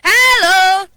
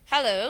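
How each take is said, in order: First: It is said very loudly and high. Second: It is said at normal conversational volume. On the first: "and high scale. Hello, you're very loud. Sorry, this is the high scale" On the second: "the middle scale is um, the way we talk"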